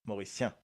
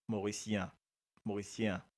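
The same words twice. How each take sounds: First: "Mauricien" with "sien" said as one beat, syen; "Mauricien" with a single-syllable ending. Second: "Mauricien" with "sien" split in two, si-en; "Mauricien" ending pulled apart into si-en; two syllables. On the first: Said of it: "Si nous mettons une seule syllabe". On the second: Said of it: "il y a deux syllabes là". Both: Shown as a demonstration.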